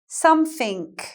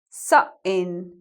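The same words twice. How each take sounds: First: The middle sound is an f, the end a k. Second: The middle sound is a catch in the throat. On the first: "Compare these to Cockney English" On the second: "we're putting a glottal stop in the middle of the word"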